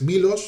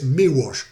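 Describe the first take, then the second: First: The L in the name is clearly pronounced. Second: The L in the name is not pronounced. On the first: The speaker calls it wrong. "no es Milos" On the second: The speaker calls it right. "la L del apellido es, eh, es muda, no suena"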